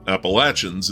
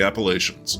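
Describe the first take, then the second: First: It uses the local North Carolina pronunciation. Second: It uses the usual, non-local pronunciation.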